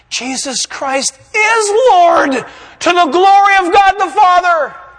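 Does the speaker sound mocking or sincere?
sincere. It is said in an earnest, sincere tone. The words are truly meant. "He's going to mean it"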